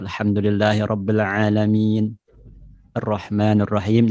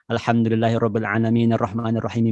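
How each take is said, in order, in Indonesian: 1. Ada jeda di antara kedua ayat. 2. Kedua ayat itu dibaca menyambung dalam satu tarikan nafas. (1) "Jadi ada jeda" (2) "satu kali nafas"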